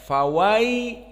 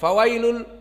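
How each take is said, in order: First: The vowel is held for two beats. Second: The vowel is cut short and rushed. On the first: The speaker calls it right. "harus ada dua harokat" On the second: The speaker calls it wrong. "tidak fawailul cepat"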